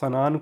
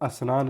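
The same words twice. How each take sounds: First: The word begins directly with the 'sn' cluster. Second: An extra vowel comes before the 'sn'. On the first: The speaker calls it right. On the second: The speaker calls it wrong.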